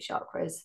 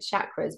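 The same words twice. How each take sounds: First: It is said in a posh-sounding accent. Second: It is said in a plain, unposh accent.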